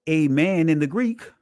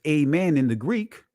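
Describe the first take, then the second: The two takes are said the same way.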